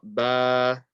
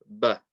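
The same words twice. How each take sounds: First: The vowel is stretched out long. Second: The vowel is short and clipped. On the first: The speaker calls it wrong. "it's not ba. We're not stretching it" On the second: The speaker calls it right. "We're just saying ba"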